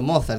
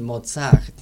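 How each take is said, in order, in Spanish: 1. El acento está en la primera sílaba. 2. El acento está en la última sílaba.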